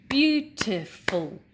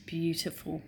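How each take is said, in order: First: Beautiful split slowly into three loud beats, beau-ti-ful; syllables clapped out. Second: Said in the usual way. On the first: Shown as a demonstration. Teacher to class, Beautiful clapped into syllables. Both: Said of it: "Let's clap".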